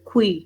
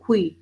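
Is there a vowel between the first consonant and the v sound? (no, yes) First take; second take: no; no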